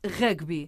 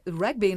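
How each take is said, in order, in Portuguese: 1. A palavra é pronunciada à maneira portuguesa. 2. A palavra é pronunciada à maneira inglesa. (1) "À portuguesa" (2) "em inglês é rugby"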